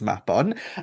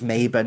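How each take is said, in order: First: The name is said with a Welsh pronunciation. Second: The name is said with an English pronunciation. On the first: The speaker calls it right. "It's Mapon" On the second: The speaker calls it wrong. "often invoked incorrectly, pronounced as Mabon"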